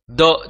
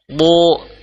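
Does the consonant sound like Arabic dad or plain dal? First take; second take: dal; dad. First: The consonant is made with the tongue's front. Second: The consonant is made with the tongue's side. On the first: The speaker calls it wrong. "jangan sampai bo itu menggunakan lidah bagian depan" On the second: The speaker calls it right. "Tepi lidah ini kita tempelkan di gigi geraham"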